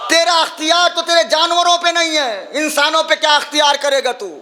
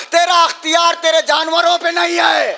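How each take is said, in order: First: Angry rebuke. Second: Raised, scornful shout at the tyrant; angry rebuke. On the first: Zainab taunting Yazid over his power, angry shout. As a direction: hurl the taunt at him. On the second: Zainab shouting down Yazid in his court, angry. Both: Acted.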